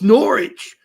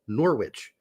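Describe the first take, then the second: First: The W in the middle is silent. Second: The W in the middle is clearly pronounced. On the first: This is the current pronunciation of the name. "They dropped the W. Now it's Norwich" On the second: This is the old pronunciation of the name. "it used to actually be, be pronounced Norwich"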